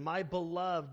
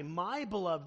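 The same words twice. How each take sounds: First: Said in the usual way. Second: My pressed a little, beloved falling after; my beloved, with my carrying the weight; stress on my. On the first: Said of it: "Notice the emphasis of beloved". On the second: Shown as a demonstration. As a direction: lean on the word my to show possession. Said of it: "the pronoun my".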